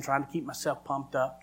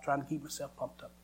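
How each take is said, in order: First: Said in the usual way. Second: Quiet falling repeat; softer echo. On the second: Shown as a demonstration. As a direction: repeat it softly, falling away.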